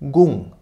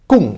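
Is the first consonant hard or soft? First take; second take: soft; hard. First: The first consonant is soft. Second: The first consonant is hard. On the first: The speaker calls it wrong. "aber nicht" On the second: The speaker calls it right. "eben hart ausgesprochen"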